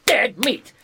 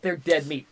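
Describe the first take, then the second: First: Dead meat! punched higher and louder; gleeful loud echo of dead meat; emphatic repeat. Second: Said in the usual way. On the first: Real, not acted. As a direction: slam the words dead meat home.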